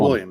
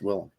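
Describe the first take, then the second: First: The name is said like the common name William. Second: The name is said as Willem, without the i-glide. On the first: This is how most people say it. The speaker calls it wrong. "Everyone says" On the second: This is the actual name. The speaker calls it right. "It's Willem"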